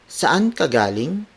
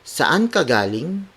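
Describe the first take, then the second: First: It is said with a questioning intonation. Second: The same.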